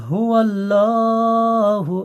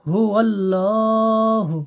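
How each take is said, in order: No difference in how they are said.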